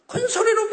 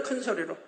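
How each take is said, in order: First: 큰 소리로 pushed up high as a preached point. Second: 큰 소리로 dropped to a much softer, lower, laughing murmur; 큰 소리로 thrown away quietly with a chuckle; soft aside. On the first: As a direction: raise the voice sharply on 큰 소리로, higher and stronger. Preacher stresses loud command. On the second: Preacher repeats the phrase to himself, soft and laughing. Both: Shown as a demonstration.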